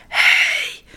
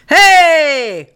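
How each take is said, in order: First: Drawn-out voiceless whisper. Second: Loud, high, drawn-out shout. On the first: Voiceless children trying to scare birds, whispering. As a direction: try to yell with no voice left. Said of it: "En ze fluisteren". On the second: Children scaring birds from the cherry tree, shouting. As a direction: yell it out to scare off birds. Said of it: "ze schreeuwen van". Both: A narrator's reading.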